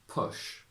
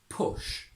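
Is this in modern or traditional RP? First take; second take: modern; traditional. First: The vowel is central, close to a schwa. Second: The vowel is further back and more rounded.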